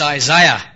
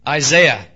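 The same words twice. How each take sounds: First: Isaiah is said the British way. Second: Isaiah is said the American way. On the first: The speaker calls it right. "It's Isaiah" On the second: The speaker calls it wrong. "I'm learning to say y'all. But I will never say Isaiah"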